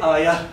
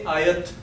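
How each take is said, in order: First: The word ends with an h sound. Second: The word ends with a t sound. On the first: The speaker calls it right. "But here I don't pronounce ta. I say ayah" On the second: The speaker calls it wrong. "I don't say ayat"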